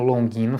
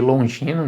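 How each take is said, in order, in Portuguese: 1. O g é duro, como em go. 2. O g é suave, como o som de j. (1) "esse G sem o U é, depois dele em língua portuguesa soar como Longino fica estranho" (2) "eu prefiro chamar de Longino"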